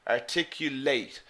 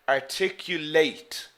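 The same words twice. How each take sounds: Both takes have the same delivery.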